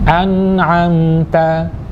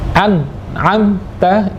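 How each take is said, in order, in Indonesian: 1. Bunyi n mengalir lancar. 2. Bunyi n terputus, tidak dialirkan. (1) "harus dialirkan" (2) "tidak tepat karena tidak dialirkan"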